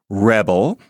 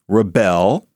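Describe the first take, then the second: First: The stress is on the first syllable. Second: The stress is on the second syllable. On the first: It is a noun. "accent on the first syllable, is a noun" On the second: It is a verb. "accent on the second syllable, verb"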